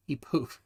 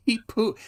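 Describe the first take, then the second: First: He poof said softly with a clear f; plain poof. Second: Laughing, cuts off at poo-; wrong poo-. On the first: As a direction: quietly settle on poof. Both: Shown as a demonstration. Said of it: "not poop".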